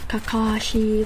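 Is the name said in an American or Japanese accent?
American. The name is said with an American accent. The speaker calls it wrong. "Why do I have that accent?"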